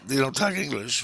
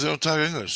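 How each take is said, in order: First: Puzzled echo, higher and rising at the end; retelling a baffled question back, disbelieving; incredulous question. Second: Higher pitch, falling firmly at the end; retold matter-of-fact repeat, voice raised in pitch; insistent answer. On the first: Retold or imitated. Dreamer questions the munchkins' handler, incredulous. Echoes what he was just told. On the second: Handler answers the puzzled dreamer, insistent.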